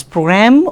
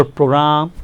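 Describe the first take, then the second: First: "program" with a rising second syllable; first pronunciation variant. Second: "program" with a level, drawn-out ending; second pronunciation variant. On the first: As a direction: say "program" lifting high on "gram". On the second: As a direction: offer "program" as the other option, ending held level. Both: Shown as a demonstration. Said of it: "it is program or program".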